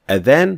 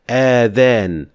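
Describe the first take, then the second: First: The first vowel is short. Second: The first vowel is drawn out long. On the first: It means the call to prayer. The speaker calls it right. "starts with hamza, so there is no alif here or med whatsoever" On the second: It means ears. The speaker calls it wrong. "some people say adhan while adding alif after the hamza"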